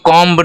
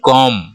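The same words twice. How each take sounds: First: The final B sound is pronounced. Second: The final B sound is silent. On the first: The speaker calls it wrong. "इसको comb नहीं बोलते हैं" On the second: The speaker calls it right. "B यहाँ पे silent है"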